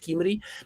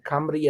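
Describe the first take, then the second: First: The first vowel is a close 'ee' sound. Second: The first vowel is an open 'uh' sound. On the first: The speaker calls it wrong. "and not Kimry" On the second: The speaker calls it right. "like Camry"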